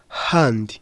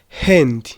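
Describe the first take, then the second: First: The word is said with a British accent. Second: The word is said with an American accent. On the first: "icy'aba British tukavuga" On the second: "icyongereza cy'abanyamerika tuvuga"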